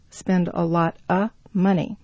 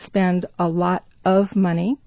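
First: Of is reduced to a short vowel. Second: Of is said as a full word.

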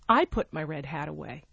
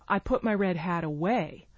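First: The stress falls on the word I. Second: The stress falls on the word away. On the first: It answers who put the hat away. "Who put your red hat away?" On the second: It answers what was done with the hat. "Or where did you put your red hat"

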